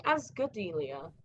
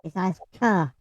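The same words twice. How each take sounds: First: Ascadelia said with a G, as Az-ga-delia; mistaken G pronunciation. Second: Ascadelia with a hard K, the KA punched loud; correcting pronunciation. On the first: Retold or imitated. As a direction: soften the K of Ascadelia into a G. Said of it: "why I kept saying". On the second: Shown as a demonstration. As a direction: stress the K syllable in Ascadelia, no G sound. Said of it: "there's no G in it".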